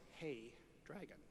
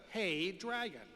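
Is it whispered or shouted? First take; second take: whispered; shouted. First: It is whispered very softly. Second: It is shouted very loudly.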